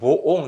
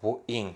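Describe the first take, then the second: First: The word ends with an 'on' sound. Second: The word ends with an 'in' sound. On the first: The speaker calls it wrong. "아니에요" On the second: The speaker calls it right. "이거는 모 잉이라고 읽어요"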